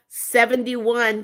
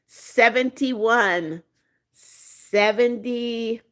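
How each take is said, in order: First: Said in the usual way. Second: Seventy-one drawn out slowly, each syllable spelled out; slow emphatic repeat. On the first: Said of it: "Country Girl says she's seventy-one". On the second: Shown as a demonstration. Insisting to the chat on her real age, slow and deliberate. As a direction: say Seventy-one slowly, making sure they hear it. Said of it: "People, get it right".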